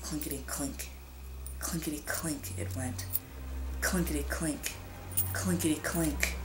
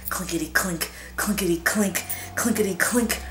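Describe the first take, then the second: First: Whispered clinking. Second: Building clinking. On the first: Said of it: "silver dollars rattling". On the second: Coins rattling, building. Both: A narrator's reading.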